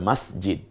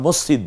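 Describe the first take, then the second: First: The first vowel is an open 'a'. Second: The first vowel is a rounded 'o'. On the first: The speaker calls it right. "হবে মসজিদ" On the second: The speaker calls it wrong. "এটা উচ্চারণগত ভুল"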